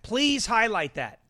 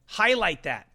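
First: PLEASE drawn out, slow and pleading; slow insistent please. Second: Said in the usual way. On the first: Shown as a demonstration. Host begging the producer to highlight it, slowly.

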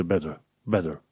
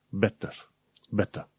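First: "better" said as "bedder"; American D sound. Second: "better" with a crisp T, as in "bet-uh"; British clear T. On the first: Teacher showing American "better" with a D sound. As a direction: soften the T of "better" into D. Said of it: "cu D". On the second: Teacher showing British "better" with clear T. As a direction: sound a true T in "better". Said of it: "în engleza britanică trebuie să pronunți cu T". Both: Shown as a demonstration.

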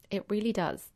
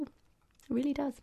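First: Said in the usual way. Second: Whisper. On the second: Shown as a demonstration. Hushed repeat of the point.

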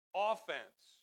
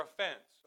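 First: "offense" stressed on the first syllable, OFF-ense; wrong-syllable stress. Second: "offense" stressed on the second syllable, uh-FENSE; corrected stress. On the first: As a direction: hit the OF of "offense" hard. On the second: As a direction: reduce the first vowel and hit FENSE in "offense". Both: Shown as a demonstration. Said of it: "I put the emphasis on the wrong syllable".

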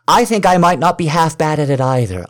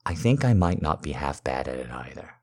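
First: Higher and louder, eager; excited insistence. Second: Said in the usual way. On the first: Acted. To partner, repeating the hope with excited higher louder insistence. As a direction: push it with rising excitement.

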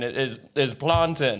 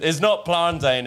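First: PLANTAIN slowly, with a short final "tin"; "plantain" ending in an unstressed "tin"; the corrected pronunciation. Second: PLANTAIN slowly, ending like "tain" in "maintain"; "plantain" with a long "ayn" ending; the rejected pronunciation. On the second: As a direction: stretch "plantain" to rhyme with "rain". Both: Retold or imitated. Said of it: "you made a video being like".

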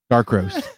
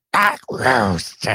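First: Said in the usual way. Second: Cartoon villain. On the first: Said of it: "repeating plainly". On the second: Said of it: "You sound like a cartoon villain".

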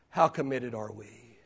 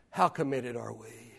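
Both takes have the same delivery.

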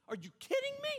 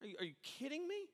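First: Shrill, very high disbelief; incredulous squeal. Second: Incredulous. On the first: Preacher mocking a mourner's disbelief, squealing high. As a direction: go way up in stunned disbelief. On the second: Pastor acting out disbelief. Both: Acted.

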